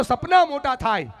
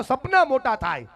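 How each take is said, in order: First: Chanted, louder call, સપના hit hard; chanted, push the crowd to shout it back, louder; chanted, second, louder call of સપના મોટા થાય. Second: Chanted, a raised call for the crowd to repeat; chanted, first call of સપના મોટા થાય, stressing સપના; rousing chant line. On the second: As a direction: lead the chant, strong but not yet at full force. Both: Shown as a demonstration. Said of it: "જોરથી બોલો".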